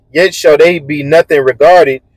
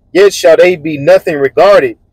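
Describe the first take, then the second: The two takes are said the same way.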